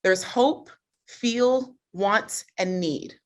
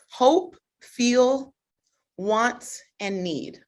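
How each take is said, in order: First: Said in the usual way. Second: "Hope, feel, want, and need" one word at a time, pauses between; deliberate word-by-word listing. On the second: Shown as a demonstration. Coach repeats four key words to audience, "Hope, feel, want, and need" spaced out. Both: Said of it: "I'm gonna break it down".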